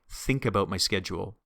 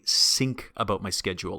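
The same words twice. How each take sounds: First: Think starts with a th sound. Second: Think starts with an s sound. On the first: The speaker calls it right. "We want to put our tongue between our teeth" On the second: The speaker calls it wrong. "like as if that T H is an S"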